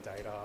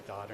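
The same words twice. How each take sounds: First: "data" said with an ay in the first syllable; "data", rhyming with later; "data" as DAY-ta. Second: "data" said as DAH-ta; Australian-style "data", rhyming with garter; Aussie "data". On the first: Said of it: "instead of data". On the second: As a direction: say "data" with a long ah in the first syllable. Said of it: "the fact that I say data instead of data". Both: Shown as a demonstration.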